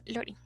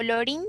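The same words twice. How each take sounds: First: "Lorin" as LO-rin, stressed on the first syllable. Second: "Lorin" as lo-RIN, stressed on the last syllable; wrong final stress. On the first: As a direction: correct "Lorin", accent on O, dropping softly. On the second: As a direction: put the accent on the i of "Lorin", rising. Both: Shown as a demonstration. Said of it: "con acento en la O".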